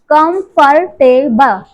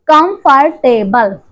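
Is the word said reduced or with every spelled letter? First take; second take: every letter; every letter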